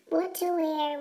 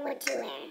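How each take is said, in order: First: Said in the usual way. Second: Softer, lower echo of the question; soft repeat. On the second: Acted. Girl choosing an outfit alone, softer lower musing echo. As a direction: trail off into a murmur.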